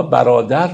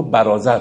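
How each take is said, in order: First: Said in the usual way. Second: برازر with z in place of d, as in Rumi's time; old Persian pronunciation. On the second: Shown as a demonstration. Teacher explaining Rumi's pronunciation, برازر with a z. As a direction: say brother as برازر, "barâzar".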